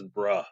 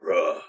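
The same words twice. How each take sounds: First: "bruh" read out plainly off the sticker; saying bruh. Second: "Bruh" dropped low, short and flat-toned; deadpan bruh. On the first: Reading a koozie sticker aloud, saying "bruh" plainly. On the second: Repeating the sticker word to viewers as a low "Bruh". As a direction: drop a low, dry "Bruh". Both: Shown as a demonstration. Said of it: "it just says bruh".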